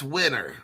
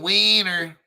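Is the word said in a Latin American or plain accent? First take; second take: plain; Latin American. First: The word is said in a plain accent. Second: The word is said in a Latin American accent. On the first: "that's winner" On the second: "I'm using my Latin American accent"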